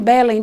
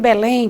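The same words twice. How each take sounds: First: The stress falls on the first syllable. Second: The stress falls on the last syllable. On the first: The speaker calls it wrong. "Eu não digo que moro em Belém" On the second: The speaker calls it right. "ponho força na última sílaba"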